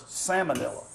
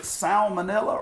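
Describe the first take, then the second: First: Salmonella without the first L, SAM-uh-nella; silent L. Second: Salmonella with the L sounded, SAL-muh-nella; L pronounced. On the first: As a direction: leave out the L after the a in salmonella. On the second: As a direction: give salmonella an audible first L. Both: Shown as a demonstration. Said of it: "Which is it?".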